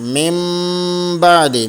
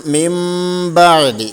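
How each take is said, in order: First: The nasal before 'ba' sounds like m. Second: The same.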